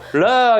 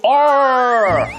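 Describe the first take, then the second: First: It is said as a Korean-style syllable, reo. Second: It is said with an English-style R sound. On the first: "러 이러겠죠" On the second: "R이라고 안 하고"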